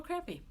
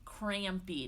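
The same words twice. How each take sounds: First: "crampy" with the m swallowed; slurred crampy. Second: "Crampy" said carefully with the m clear; corrected crampy. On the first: Real, not acted. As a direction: let "crampy" blur towards "crappy". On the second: Shown as a demonstration. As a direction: correct yourself, sounding out the m in "Crampy". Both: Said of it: "not crappy".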